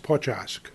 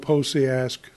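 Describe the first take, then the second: First: The name is said with Polish sounds. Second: The name is said with English sounds. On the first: "if you want to pronounce it in Polish" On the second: "if you want to go Posiask, that's fine"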